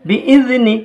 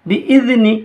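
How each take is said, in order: No difference in how they are said.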